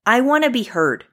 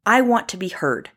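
First: "want" lifted high and punched; stress on WANT. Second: Said in the usual way. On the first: Real, not acted. Venting about hospitals, repeating it, hitting "want". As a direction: lean hard on "want" in I want to be heard.

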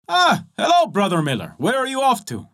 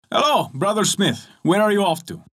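First: Bright, higher greeting to the miller; the tailor and smith greet the dusty miller. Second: Tailor's greeting. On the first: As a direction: call out a friendly hello. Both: Acted.

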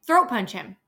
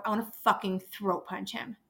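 First: Louder angry echo. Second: Said in the usual way. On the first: Real, not acted. Louder repeat.

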